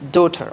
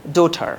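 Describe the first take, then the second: The two takes are said the same way.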